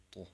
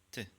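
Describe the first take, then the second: First: "to" as a heavy, dark Arabic t; emphatic Arabic "to". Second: Short, light "T" sound; soft Arabic "T". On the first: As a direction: say "to" with a backed, rounded vowel. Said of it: "And the emphatic form is". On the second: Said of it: "The third sound is". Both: Shown as a demonstration.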